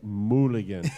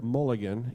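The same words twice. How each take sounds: First: It has Spanish-style vowels, with no 'uh'. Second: It has the English 'uh' vowel sound. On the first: The speaker calls it right. "You say mulligan" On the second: The speaker calls it wrong. "you never say the word mulligan"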